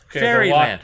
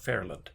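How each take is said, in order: First: The name has three syllables, the y is pronounced. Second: The name has two syllables, the y is silent. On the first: This is how it looks from the spelling. "it's spelled F A I R Y L A N D" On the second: This is how the place is actually called. "Now it's called Fairland"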